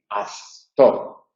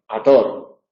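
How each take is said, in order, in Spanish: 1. Delante de la t se oye un sonido parecido a th. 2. Delante de la t no se oye ninguna consonante. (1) "lo que hay que evitar es que la relajación nos lleve a pronunciar una interdental" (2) "otra consecuencia es la eliminación"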